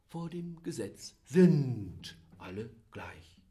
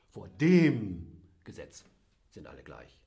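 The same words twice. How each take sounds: First: The stress is on "sind". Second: The stress is on "dem".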